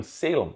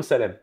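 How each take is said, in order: First: "Salem" said the American way, SAY-lum; anglicized "Salem", first syllable stressed; English pronunciation. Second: "Salem" said the French way, sa-LEM; French-sounding "Salem", stress toward the end; French pronunciation. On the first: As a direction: open "Salem" with SAY and reduce the ending. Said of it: "le mot Salem en anglais". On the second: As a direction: give "Salem" an open first A and a clear final LEM. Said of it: "je me présentais jamais comme Salem". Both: Shown as a demonstration.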